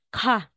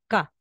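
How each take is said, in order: First: The k is said with a strong puff. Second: The k is said with no puff. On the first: "yung bigkas niya is ka" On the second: "Simplified na po natin into ka"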